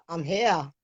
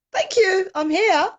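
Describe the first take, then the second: First: Said in the usual way. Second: Much higher and louder, voice cracking up with feeling; overwhelmed emotion. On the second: Real, not acted. Guest thanking the host, overcome and high-pitched. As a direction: burst out high and loud, overcome.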